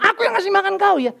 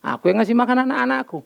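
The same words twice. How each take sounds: First: High, lightly mocking boast; a hint of a self-important father, pitched up. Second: Said in the usual way. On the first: Father boasting to his child, mock proud. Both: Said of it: "Tapi kalau aku bilang".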